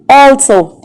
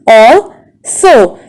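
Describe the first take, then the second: First: Said in the usual way. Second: "Also" as al, so, with a long gap; split into syllables. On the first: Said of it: "How many syllables are there". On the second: Shown as a demonstration. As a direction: break "Also" into two separate beats. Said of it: "We have only two syllables".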